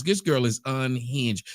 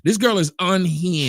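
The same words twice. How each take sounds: First: Said in the usual way. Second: Pushed louder for the muted mic; louder repeat. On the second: Real, not acted. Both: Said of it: "your microphone muted".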